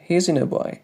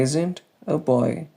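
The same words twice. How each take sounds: First: The phrase is said very quickly with words linked. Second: The phrase is said at an ordinary, careful pace.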